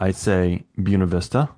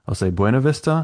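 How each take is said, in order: First: The name is said in the old local way. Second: The name is said in the visitor way. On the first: The listener is a longtime local. "If I'm talking to a crusty old local" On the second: The listener is a tourist. "If I'm talking to a tourist"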